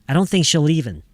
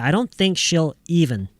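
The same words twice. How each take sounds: First: The L of she'll runs straight into even. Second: She'll and even are said as separate words. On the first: The speaker calls it right. "we need the L to carry over to the even" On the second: The speaker calls it wrong. "Don't separate she'll and even. Don't say"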